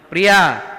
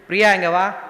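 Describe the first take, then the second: First: The name is called with somewhat more force. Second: The name is called in a plain, gentle way.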